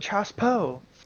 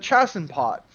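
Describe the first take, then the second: First: It is said with a French-style reading. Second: It is said with an American-style reading. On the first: The speaker calls it right. "it's actually pronounced the Chassepoe" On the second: The speaker calls it wrong. "That's the American"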